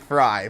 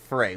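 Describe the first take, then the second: First: The name's vowel rhymes with 'die'. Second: The name's vowel rhymes with 'day'. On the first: The speaker calls it right. "it is Fry, but it just sounds weird to say" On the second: The speaker calls it wrong. "I've always pronounced it Frey"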